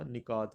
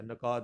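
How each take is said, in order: First: نکات as "ni-kaat", short i first; correct pronunciation. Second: نکات as "na-kaat", short a first; wrong pronunciation. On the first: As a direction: open نکات with "ni". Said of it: "نکات ہوتا ہے". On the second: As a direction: open نکات with "na". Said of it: "نکات بھی نہیں ہوتا". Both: Shown as a demonstration.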